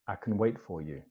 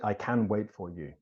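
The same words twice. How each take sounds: First: The word 'can' is reduced and weak. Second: The word 'can' is full and strong. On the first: The speaker calls it right. "So it becomes can" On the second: The speaker calls it wrong. "we don't say"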